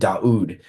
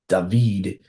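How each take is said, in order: First: The middle sound is a u vowel. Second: The middle sound is a v consonant. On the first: This is the original form of the name. The speaker calls it right. "That's how they said his name" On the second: This is a modern form of the name. The speaker calls it wrong.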